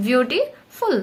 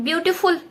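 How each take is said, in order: First: ବିୟୁଟିଫୁଲ broken in two, ବିୟୁଟି, pause, ଫୁଲ; two-step word. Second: Said in the usual way. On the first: Shown as a demonstration. Teacher showing students a longer word, ବିୟୁଟିଫୁଲ in two separate steps. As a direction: split ବିୟୁଟିଫୁଲ with a clear gap before ଫୁଲ. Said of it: "ଉଚ୍ଚାରଣ କରିବା ପାଇଁ କି ତମକୁ two step". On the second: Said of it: "ବିୟୁଟିଫୁଲ କହିଲା ବେଳେ".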